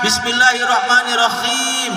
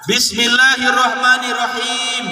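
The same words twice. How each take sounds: First: The h in rahim is light and plain. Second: The h in rahim is throaty and strong. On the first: It means something cool and soft. The speaker calls it wrong. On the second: It means the Most Merciful. The speaker calls it right.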